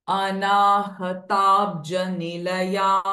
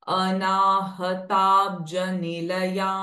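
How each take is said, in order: The two takes are said the same way.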